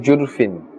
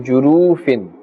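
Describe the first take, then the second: First: The vowel after the r is dropped. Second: The vowel after the r is drawn out long. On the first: "Be careful not to say jurfin" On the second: "But don't pull as well. Do not say jurufin. Then we'll be adding a waw"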